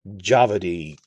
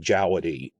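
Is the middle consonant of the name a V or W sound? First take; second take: V; W. First: The middle consonant sounds like a V. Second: The middle consonant sounds like a W. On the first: It follows how the name would be said in German. "the whole German W for V thing" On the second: It follows how the name is spelled. "sticking close to how it's spelled"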